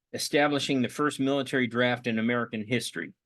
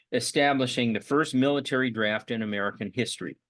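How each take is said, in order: Both takes have the same delivery.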